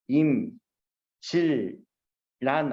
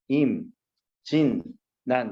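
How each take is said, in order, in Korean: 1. 가운데 자음은 ㄹ 소리처럼 나요. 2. 가운데 자음은 ㄴ 소리처럼 나요. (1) "소리가 둘 중에 하나 아니니?" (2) "비음화"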